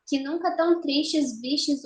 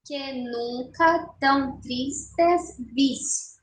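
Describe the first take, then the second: First: Said in the usual way. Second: "Que nunca tão tristes vis" slow, one syllable at a time; escansão silábica. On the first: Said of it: "Bom, primeiro verso". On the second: Shown as a demonstration. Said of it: "vamos fazer a escansão". ("Que nunca tão tristes vis" devagar, sílaba por sílaba)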